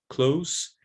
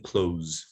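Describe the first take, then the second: First: "close" with final s, higher and rising; voiceless adjective ending. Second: "close" with final z, lower; voiced verb ending. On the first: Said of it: "it's voiceless". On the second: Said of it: "it's voiced". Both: Shown as a demonstration.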